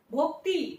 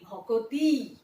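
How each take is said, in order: First: ভক্তি with the কত cluster kept; ভক্তি, joined consonants; as spelled. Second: ভকতি, vowel between ক and ত; ভকতি in three syllables; ভকতি, cluster broken; vowel inserted. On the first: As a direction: say ভক্তি as written. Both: Shown as a demonstration. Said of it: "দেখো".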